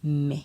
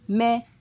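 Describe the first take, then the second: First: It is said on a low tone. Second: It is said on a mid tone. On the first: "Avec un ton bas" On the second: "Ton moyen"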